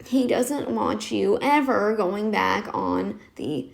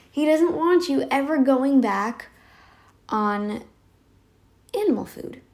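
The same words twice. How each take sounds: First: Slow, lightly shaky imitation of the doctor; croaky doctor imitation. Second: Said in the usual way. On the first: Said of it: "shaky, croaky voice".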